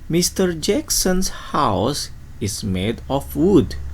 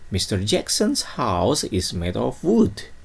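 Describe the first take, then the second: First: The sentence is read at a slow pace. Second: The sentence is read at a fast pace.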